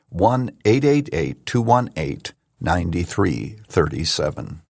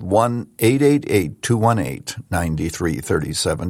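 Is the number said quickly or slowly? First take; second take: slowly; quickly. First: The number is said slowly. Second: The number is said quickly.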